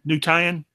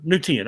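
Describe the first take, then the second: First: "New Tian" with Tian said TIE-en; alternative pronunciation. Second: "New Tian" with Tian said TEE-en; settled pronunciation. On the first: Testing the name on co-host, Tian as TIE-en. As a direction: rhyme "Tian" with lion in "New Tian". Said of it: "is it Tian or Tian?". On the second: Settling the name with co-host, Tian as TEE-en. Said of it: "Okay, we'll call it Tian". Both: Shown as a demonstration.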